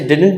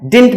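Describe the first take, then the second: First: The middle d sound is clearly pronounced. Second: The middle d sound is dropped. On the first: "वैसे डिडंट भी पढ़ते हैं" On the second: "इसके डी को silent कर देते हैं"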